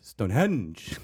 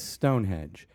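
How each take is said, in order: First: The stress is on the second syllable. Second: The stress is on the first syllable. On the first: This is how British people say it. "they do like a weird emphasis on the second syllable on the henge" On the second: This is how Americans say it. "Every American says Stonehenge"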